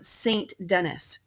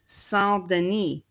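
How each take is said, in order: First: The name is said with English pronunciation. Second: The name is said with French pronunciation.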